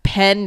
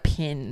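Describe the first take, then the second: First: Said in the usual way. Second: Pin said for Pen, with the vowel raised to i; Kiwi pen. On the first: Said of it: "Or, like". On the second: Retold or imitated. Explaining the Kiwi accent, the Kiwi Pin. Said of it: "they go, like".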